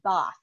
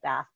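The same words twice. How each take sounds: First: The vowel is a long, broad 'ah' sound. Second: The vowel is a short, flat 'a' sound. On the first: This is the proper local pronunciation. The speaker calls it right. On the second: This is the speaker's own way of saying it. The speaker calls it wrong.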